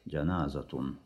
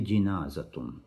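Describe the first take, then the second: First: The first syllable has the vowel 'a'. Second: The first syllable has the vowel 'i'. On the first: Some say it means the deceased person. "Если фатха, если джаназа" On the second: Some say it means the bier carrying the deceased. "Или джиназатун. И так можно"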